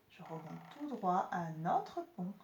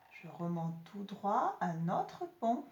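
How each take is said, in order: Both takes have the same delivery.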